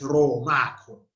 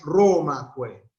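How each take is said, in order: First: The stress is on the second syllable. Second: The stress is on the first syllable. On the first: The speaker calls it right. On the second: The speaker calls it wrong. "Ya no es"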